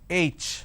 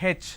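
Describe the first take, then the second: First: The letter is said in a standard English way. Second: The letter is said in a southern Indian way. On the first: The speaker calls it right. "It's pronounced as H" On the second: The speaker calls it wrong. "They say H"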